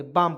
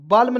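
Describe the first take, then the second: First: बाम with the l silent, dropped lower; right reading. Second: बाल्म with the l voiced, a little raised; wrong reading. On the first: Teacher settling on बाम as the correct word. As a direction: say बाम, no l at all. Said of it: "बाम पढ़ेंगे". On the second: Teacher marking बाल्म as the mistaken reading. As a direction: say बाल्म sounding the l. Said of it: "बाल्म नहीं पढ़ेंगे". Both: Shown as a demonstration.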